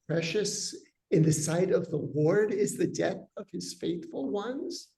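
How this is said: It is said as a question, rising at the end. It asks whether their death can really be precious to God. "as a rhetorical question"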